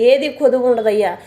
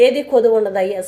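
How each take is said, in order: Both takes have the same delivery.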